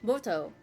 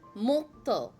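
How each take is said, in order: First: The t is short with no pause. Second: The t is held with a slight pause. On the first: The speaker calls it wrong. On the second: The speaker calls it right.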